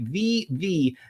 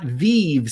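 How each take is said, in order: First: The name is said as two syllables. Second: The name is said as one syllable. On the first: The speaker calls it right. "just to make sure everyone pronounces it right" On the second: The speaker calls it wrong. "not Vive"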